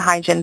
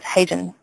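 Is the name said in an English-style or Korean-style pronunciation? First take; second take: English-style; Korean-style. First: The name is said with an English-style pronunciation. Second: The name is said with a Korean-style pronunciation. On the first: This is how other people say the name. The speaker calls it wrong. "People call me Hyjin" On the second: This is how the name is really meant to sound. The speaker calls it right. "actually it should be pronounced as Hyjin"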